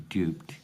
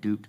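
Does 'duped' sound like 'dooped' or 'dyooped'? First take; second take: dyooped; dooped. First: The vowel starts with a y glide. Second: The vowel is a plain oo sound. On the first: This is the British way. "stay in England" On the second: This is the American way. "go to America"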